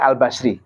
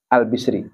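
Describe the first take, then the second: First: The first vowel of the name is 'a'. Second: The first vowel of the name is 'i'. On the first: This is how many clerics read the name. "Kiai-kiai itu banyak bacanya Al-Basri" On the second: This is the reading the speaker uses. "Tapi kalau saya bacanya Al-Bisri"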